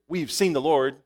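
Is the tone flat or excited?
flat. It is said in a plain, flat way.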